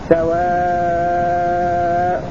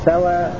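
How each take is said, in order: First: The final vowel is held long. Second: The final vowel is held short, without the hamza. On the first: "والطول" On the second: "الإسقاط مع القصر"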